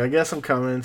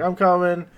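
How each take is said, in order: First: Said in the usual way. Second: Higher-pitched mild mock yell; retold yell. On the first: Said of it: "So then he's like". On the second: Goku answering a plea for help, mild mock yell. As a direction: call it out lightly, without full volume. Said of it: "So he yells".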